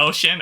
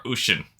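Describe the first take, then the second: First: Ocean starting with OH, as OH-shin; first pronunciation variant. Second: Ocean starting with OO, as OO-shin; second pronunciation variant. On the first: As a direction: say ocean with a long OH before sh. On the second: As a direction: say ocean with OO before sh. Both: Shown as a demonstration. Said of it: "it's ocean or ocean".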